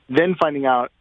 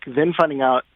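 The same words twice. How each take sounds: The two takes are said the same way.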